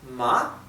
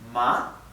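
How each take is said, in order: The two takes are said the same way.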